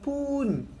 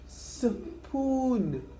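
First: The word begins without an 's' sound. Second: The word begins with an 's' sound. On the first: The speaker calls it wrong. "Not poon" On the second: The speaker calls it right.

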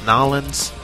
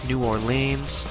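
First: It is said in a put-on character accent. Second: It is said in the speaker's ordinary accent.

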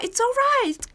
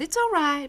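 First: It is said in an enthusiastic, delighted tone. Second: It is said in a lukewarm, so-so tone. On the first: The thing is really great. "그럴 때는 아주 좋아, it's alright, 정말 great 이렇게 표현할 수 있고요" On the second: The thing is merely not bad. "뭐 나쁘지 않아 이런 표현으로"

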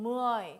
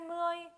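First: The word carries a marked, non-level tone. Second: The word is said level, without its tone. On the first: It means ten on its own. "무어이 자체가 10이죠" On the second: It marks the tens in a compound number. "무어이의 성조 없어지죠"

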